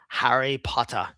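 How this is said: It is said in a British accent. "a British guy saying it"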